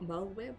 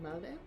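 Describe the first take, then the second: First: The name ends in a 'lwib' sound. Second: The name ends in a plain 'lib' sound. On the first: This is the other pronunciation the speaker has not used. "not Merlwyb" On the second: This is how the speaker has always said it. "I've always pronounced it Merlib"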